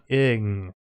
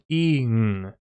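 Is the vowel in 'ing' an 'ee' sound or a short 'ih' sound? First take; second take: ih; ee. First: The vowel is a short ih sound. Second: The vowel is a long ee sound. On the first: The speaker calls it wrong. "not ing" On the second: The speaker calls it right. "which should be the E sound"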